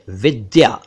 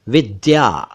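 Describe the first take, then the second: Both takes have the same delivery.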